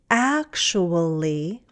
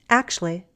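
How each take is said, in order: First: Every syllable of the word is pronounced. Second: One syllable of the word is dropped. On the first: "a longer one" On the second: "a shorter one"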